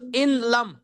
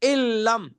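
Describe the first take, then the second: First: The n is pronounced separately before l. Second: The n merges into a doubled l sound. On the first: This is the underlying form of the words. "असलो इन लम" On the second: This is how it is recited with idgham. "इसको कहते हैं इदगाम"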